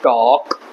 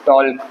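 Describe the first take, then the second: First: टॉक with no l before k; silent L. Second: टॉल्क with an audible l before k; sounded silent L. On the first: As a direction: say टॉक, leaving out the l. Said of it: "इसको बोलेंगे". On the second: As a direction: pronounce the l in टॉल्क. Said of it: "सारे words में एल silent होता है". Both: Shown as a demonstration.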